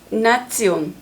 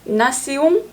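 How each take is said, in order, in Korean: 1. 'nah-tsyon'처럼 들리고, 'ts' 소리가 있어요. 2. 'nah-syon'처럼 들리고, 콧소리로 끝나요. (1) "독일어" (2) "프랑스어"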